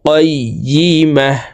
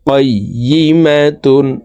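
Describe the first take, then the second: First: The word ends with a silent 'h' sound. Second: The word ends with a full 'tun' sound. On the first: The reader stops on this word. "ওয়াকফের ক্ষেত্রে হার উচ্চারণ করব এবং হাকে সাকিন করে ফেলতে হবে।" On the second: The word is read as connected to what follows. "তা দুই পেশ তুন"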